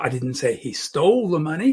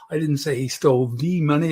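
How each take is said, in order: First: The word "stole" carries the emphasis. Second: The word "the" carries the emphasis. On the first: He took it some other way. "He borrowed it" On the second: It was some other money. "I can even change the emphasis on the"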